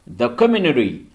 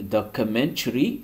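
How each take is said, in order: First: The T after the N is dropped. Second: The T after the N is pronounced.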